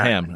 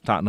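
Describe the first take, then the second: First: The last syllable is a full 'ham'. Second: The last syllable is reduced, not 'ham'. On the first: The speaker calls it wrong. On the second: The speaker calls it right. "It's not ham and, and cheese. It's Tottenham"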